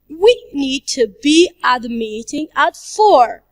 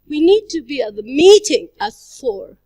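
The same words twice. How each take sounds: First: The word 'we' is stressed. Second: The word 'meeting' is stressed. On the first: "if we stress the word we" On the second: "if we stress the word meeting"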